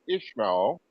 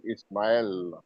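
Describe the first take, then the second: First: "Ishmael" with a sh sound, said slowly; name pronunciation shown. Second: "Ismail" with a plain s, no sh; alternative name pronunciation. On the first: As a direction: slowly say "Ishmael" with Ish- at the start. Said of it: "Or is it Ismail?". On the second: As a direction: say "Ismail" slowly, starting Iss-. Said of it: "We call it Ismail". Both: Shown as a demonstration.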